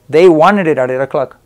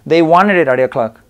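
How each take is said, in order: Both takes have the same delivery.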